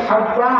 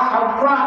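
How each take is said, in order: The two takes are said the same way.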